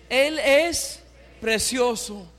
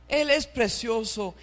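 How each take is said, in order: First: Slow, weighty "Él es precioso" with stress on "es"; slow emphatic proclamation. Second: Said in the usual way. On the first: Shown as a demonstration. Preacher leading the congregation, slow and emphatic. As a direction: draw out "Él es precioso" for the church to repeat. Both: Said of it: "Díganlo conmigo, hermanos".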